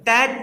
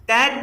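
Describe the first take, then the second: No difference in how they are said.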